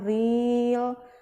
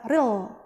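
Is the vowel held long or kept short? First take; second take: long; short. First: The vowel is drawn out long. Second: The vowel is kept short. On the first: The speaker calls it wrong. "jangan real, karena dia nggak panjang ya" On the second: The speaker calls it right. "langsung dibaca real"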